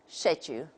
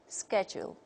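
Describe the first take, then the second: First: It is said in a British accent. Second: It is said in an American accent. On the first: "the British model" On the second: "according to the American model"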